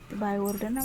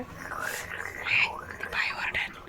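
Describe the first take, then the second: First: Said in the usual way. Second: Slow hushed whisper of a warning. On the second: Real, not acted. Mother warning her child the lady will scold, in a slow whisper. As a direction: lean in and whisper it slowly.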